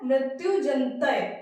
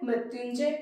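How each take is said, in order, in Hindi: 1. शब्द 'jantay' पर खत्म होता है, एक अतिरिक्त अक्षर के साथ। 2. शब्द 'njay' पर खत्म होता है, बिना अतिरिक्त अक्षर के। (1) "यहां पर ये जंतय लिखा है" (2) "यहां पर जय होना चाहिए"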